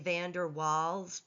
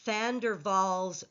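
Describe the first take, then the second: First: Waals begins with an English W sound. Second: Waals begins with a V sound, Van with F. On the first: The speaker calls it wrong. "I know you want to say Van der Waals" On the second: The speaker calls it right. "the W gets pronounced as a V. ... the V gets pronounced as an F"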